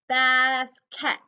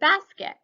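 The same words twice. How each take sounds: First: Every syllable is pronounced fully and distinctly. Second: The word is said in a normal, natural way.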